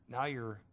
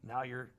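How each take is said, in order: Both takes have the same delivery.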